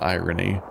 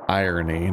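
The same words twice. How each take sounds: First: It sounds like the ordinary word 'irony'. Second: It sounds like 'iron' with a 'y' ending. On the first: The speaker calls it wrong. "Emphasis on the wrong syllable" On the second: The speaker calls it right. "Irony, not irony"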